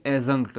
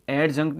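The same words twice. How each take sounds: First: "एडजंक्ट" with no D, like a-zunkt; silent D. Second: "एडजंक्ट" with the D pronounced before J; wrong D-sounded pronunciation. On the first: Teacher models the correct word for learners, "एडजंक्ट" with silent D. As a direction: drop the D in "एडजंक्ट". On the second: Teacher shows learners what to avoid, "एडजंक्ट" with audible D. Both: Shown as a demonstration. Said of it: "नहीं बोलेंगे".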